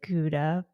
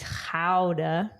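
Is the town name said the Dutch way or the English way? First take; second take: English; Dutch. First: It is said in an English-style pronunciation. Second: It is said in a Dutch-style pronunciation. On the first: The speaker calls it wrong. "I pronounce it Gouda" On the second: The speaker calls it right. "but it's Gouda"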